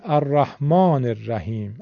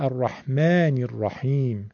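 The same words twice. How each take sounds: First: الرحمن الرحیم as 'ar-rahmaan-er-rahim', back 'aa'; Persian pronunciation. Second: الرحمن الرحیم as 'ar-rahmaen-ir-raheem', front 'a'; Arabic pronunciation. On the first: Teacher showing Persian habit, back-vowel الرحمن الرحیم. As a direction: round the 'aa', use 'er' in الرحمن الرحیم. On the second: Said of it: "عرب میگه". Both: Shown as a demonstration.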